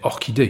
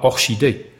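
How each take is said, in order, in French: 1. Le ch se prononce avec le son 'k'. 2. Le ch se prononce avec le son 'sh'. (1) "mais orchidée" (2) "on ne dit pas orchidée"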